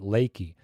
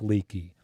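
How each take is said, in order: First: The first vowel sounds like 'ay'. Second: The first vowel sounds like 'ee'. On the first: This is how the locals say it. "they pronounce it Lakey" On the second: This is how the spelling suggests it is read. "it's spelled like leaky"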